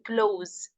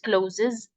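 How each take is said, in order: First: The word is said as one syllable. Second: The word is said as two syllables. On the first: The speaker calls it right. "So it's a close" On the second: The speaker calls it wrong. "not closes"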